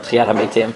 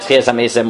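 First: It is said in consistent Sephardi pronunciation. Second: It is said in consistent Ashkenazi pronunciation.

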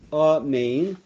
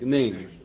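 First: The opening vowel is full and clear. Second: The opening vowel is clipped almost away. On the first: The speaker calls it right. "It's really under the aleph is a comma. So it's amen" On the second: The speaker calls it wrong. "where you kind of leave off the aleph, or you short shrift the aleph"

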